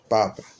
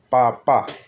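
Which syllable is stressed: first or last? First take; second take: first; last. First: The stress is on the first syllable. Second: The stress is on the last syllable. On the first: "si no hay acento, podrá decir papa" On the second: "en el último A hay un acento"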